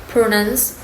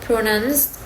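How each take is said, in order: No difference in how they are said.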